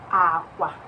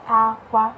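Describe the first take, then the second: First: It has the tone pattern of the word for bed. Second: It has the tone pattern of the word for cry. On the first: The word means bed. "akwa, bed" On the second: The word means cry. "Mana ịgbanwee ụdaolu gị, akwa ọ bụrụ cry"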